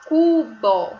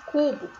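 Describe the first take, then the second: First: Cubo loud and drawn out as CU-BÓ; teacher sounding out cu-bó; syllable by syllable. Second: Said in the usual way. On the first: Shown as a demonstration. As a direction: stretch both syllables of cubo. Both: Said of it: "Tem quantas sílabas?".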